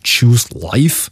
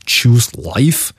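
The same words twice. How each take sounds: First: It is said in a Scottish accent. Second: It is said in a Scottish accent.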